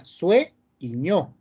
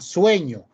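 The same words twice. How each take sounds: First: "Sue y ño" slowly, in two separate parts; split into syllables. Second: Said in the usual way. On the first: Shown as a demonstration. Teacher shows the diphthong in two parts, slow syllable split "Sue y ño". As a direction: break it after "Sue", keeping u and e together. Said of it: "en dos partes". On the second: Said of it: "La palabra está dividida solo en".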